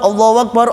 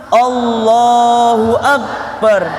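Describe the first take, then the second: First: It is said fast with syllables run together. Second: It is said slowly with every syllable clear. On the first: The speaker calls it wrong. "Biasanya kan mulai cepet-cepet" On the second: The speaker calls it right. "Harus yang benar. Harus jelas"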